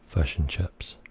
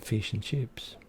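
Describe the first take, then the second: First: It is said in a New Zealand accent. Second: It is said in an Australian accent.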